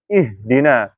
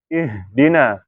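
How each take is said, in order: The two takes are said the same way.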